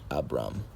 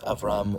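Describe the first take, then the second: First: The middle consonant is a B sound. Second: The middle consonant is a V sound. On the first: "or it can be pronounced as a B" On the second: "it could either be pronounced with as a V"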